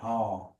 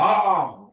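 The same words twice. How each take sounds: First: The word is said softly and quietly. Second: The word is said loudly with force.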